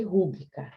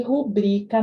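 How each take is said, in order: First: Rúbrica with the stress on RÚ; stress on first syllable. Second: Rubrica with a loud stressed BRI. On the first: Teacher recalling the old accented form, rúbrica stressed on RÚ. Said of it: "Já foi com acento". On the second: Teacher showing the tonic syllable, rubrica stressed on BRI. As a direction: punch the middle syllable of rubrica. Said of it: "a sílaba tônica é o bri". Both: Shown as a demonstration.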